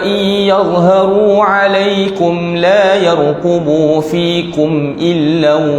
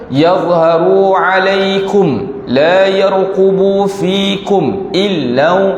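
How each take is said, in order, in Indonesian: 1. Kata-katanya mengalir terus tanpa henti. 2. Ada henti sebentar setelah alaikum. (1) "Sambung saja" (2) "itu dia panggil saktah"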